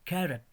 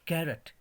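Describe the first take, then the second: No difference in how they are said.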